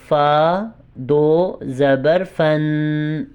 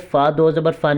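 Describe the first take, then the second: First: The letter name is said in full. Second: The letter name is cut short. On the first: The speaker calls it right. "पूरा लफ्ज़ अदा करना" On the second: The speaker calls it wrong. "नहीं होगा"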